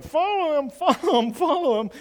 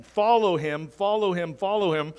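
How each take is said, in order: First: High, loud squeaky puppet voice; ventriloquist dummy voice. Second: Said in the usual way. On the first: Retold or imitated. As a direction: chirp it like a talking dummy, laughing through. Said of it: "with an image that's going". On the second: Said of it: "false prophet that's going around and saying".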